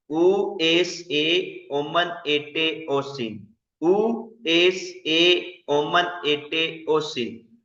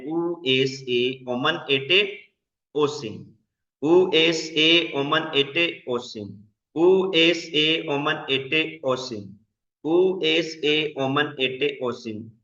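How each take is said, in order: First: Very slow recitation. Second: Each Greek ending spaced out, slow and clear; slow drill recitation. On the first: Teacher repeating the paradigm for students to memorise, very slow. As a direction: stretch out every ending, very slow and even. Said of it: "इसको याद करना है". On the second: Teacher drilling Greek verb endings for the class, slow and deliberate. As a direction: recite the endings slowly for students to repeat. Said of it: "ये वाली आपने ending join याद करनी है". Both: Shown as a demonstration.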